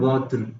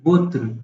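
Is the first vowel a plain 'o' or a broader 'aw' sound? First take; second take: aw; plain o. First: The first vowel is a broader 'aw' sound. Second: The first vowel is a plain 'o' sound. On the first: The speaker calls it wrong. "It's not वॉत्र" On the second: The speaker calls it right. "It's वोत्र, सिंपल"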